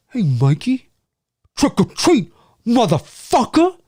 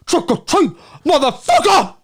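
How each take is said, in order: First: Drawn-out impression, pitched up on the catchphrase; imitating a movie line. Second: Much higher, over-the-top mimicry; exaggerated impression. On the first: Streamer quoting a Halloween film character, impression. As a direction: put on his voice, stretching the last word. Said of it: "That's kinda how he says it". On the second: Streamer overdoing a film character's line, exaggerated impression. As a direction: push the catchphrase high and hammy. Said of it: "I usually exaggerate and go".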